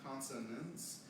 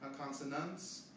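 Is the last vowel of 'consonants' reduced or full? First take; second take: reduced; full. First: The final syllable has a weak, reduced vowel. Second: The final syllable has a full, unreduced vowel. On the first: The speaker calls it right. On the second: The speaker calls it wrong.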